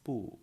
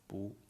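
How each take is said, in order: First: The syllable is said with its base tone. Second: The syllable is said with a changed tone. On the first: "Original pronunciation is" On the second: "when 不 together with a fourth tone, then it's"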